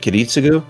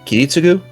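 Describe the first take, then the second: First: The stress is on a later syllable. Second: The stress is on the first syllable. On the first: The speaker calls it wrong. "rather than Kiritsugu" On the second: The speaker calls it right. "Japanese words tend to focus emphasis on the first syllable, so it's probably Kiritsugu"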